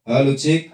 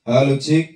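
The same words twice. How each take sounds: The two takes are said the same way.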